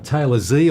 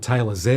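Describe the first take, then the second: First: The letter is said the American way. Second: The letter is said the Australian way.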